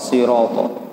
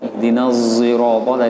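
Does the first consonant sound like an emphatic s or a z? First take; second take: emphatic s; z. First: The word begins with an emphatic s sound. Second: The word begins with a z sound. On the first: This is the reading as an independent imam. "dia baca sendiri sod sirata" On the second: This is the reading in the seven readings. "Kalau di sab'ahnya dia baca zirata tadi"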